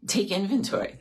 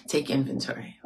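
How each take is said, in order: First: Inventory lifted high with a rising end; stressed word. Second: Said in the usual way. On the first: Shown as a demonstration. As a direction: raise the pitch on inventory and let it rise. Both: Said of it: "That's the word".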